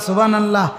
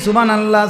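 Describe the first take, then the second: The two takes are said the same way.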